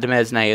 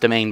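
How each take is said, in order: First: The word sounds different from 'domain'. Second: The word sounds just like 'domain'. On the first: The speaker calls it wrong. "not demesne as I was pronouncing it for a long time" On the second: The speaker calls it right. "as pronounced domain"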